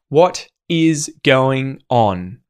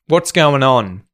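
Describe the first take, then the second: First: Every word is said fully and separately. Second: What is is shortened to one syllable, what's.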